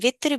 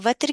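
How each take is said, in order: First: The first vowel sounds like 'i'. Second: The first vowel sounds like 'a'. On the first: It is an accepted alternative pronunciation. "वत्र की प्रोनाउंसिएशन वित्र भी है" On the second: Most commentators say it this way. "ज्यादातर मुफस्सिरीन इसको वत्र कहते हैं"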